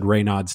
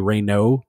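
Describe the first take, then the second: First: The word ends with an audible s sound. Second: The word ends without any s sound. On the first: The speaker calls it wrong. "the doctor actually said Raynaud's too" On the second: The speaker calls it right. "like it's supposed to be Raynaud. It's a silent"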